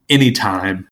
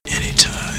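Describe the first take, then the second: First: Said in the usual way. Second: Voiceless whisper for effect. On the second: Pretend. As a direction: repeat the name in a whisper. Name repeated in a whisper.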